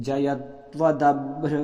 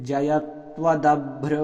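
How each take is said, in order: No difference in how they are said.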